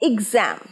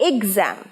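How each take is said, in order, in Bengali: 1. প্রথম স্বরটি 'big'-এর 'i'-এর মতো উচ্চারিত হয়। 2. প্রথম স্বরটি 'big'-এর 'i'-এর মতো উচ্চারিত হয়।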